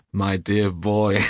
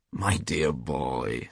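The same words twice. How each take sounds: First: Loud, slow, hugely amused; roaring with laughter. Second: Slow, lower, indulgent drawl; smiling reassurance. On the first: Trevor mocking his friend's blunder, bursting with laughter. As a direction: boom it out on the edge of laughter. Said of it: "burst into a roar of laughter". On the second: Trevor soothing his angry friend, smiling and unhurried. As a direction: say it slowly through a smile. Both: A narrator's reading.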